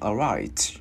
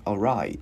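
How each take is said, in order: First: The final t is released with a puff. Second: The final t is held back, not released. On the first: "nếu như mà mình điệu quá thì mình bật ra cũng được" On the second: "Chữ T mình giữ lại"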